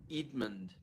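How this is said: The name is said in a New Zealand accent. This is how the name had to be said in New Zealand. "after a while I had to pronounce my name Edmund"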